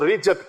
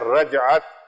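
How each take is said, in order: First: The first vowel is an 'i' sound. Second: The first vowel is an 'a' sound. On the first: The speaker calls it wrong. "कई हजरात इसको रिजत कहते हैं" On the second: The speaker calls it right. "लफ्ज है रजअत"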